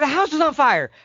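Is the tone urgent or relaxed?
urgent. It is said urgently, with a raised voice.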